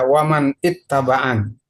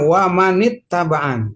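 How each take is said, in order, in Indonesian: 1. Huruf n pada man tetap tanpa vokal sebelum itt. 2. Huruf n pada man menyambung dengan i yang ditambahkan. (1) "nggak bisa dibaca waman ittabaan" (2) "kata kuncinya wamanit tabaan"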